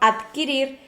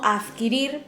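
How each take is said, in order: First: The consonant before the k sound is a d. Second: The consonant before the k sound is a th.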